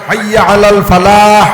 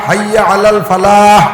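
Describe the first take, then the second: Both takes have the same delivery.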